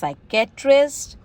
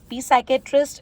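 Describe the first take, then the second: First: The word begins without any P sound. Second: The word begins with a sounded P. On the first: The speaker calls it right. "it's psychiatrist" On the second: The speaker calls it wrong. "not P psychiatrist"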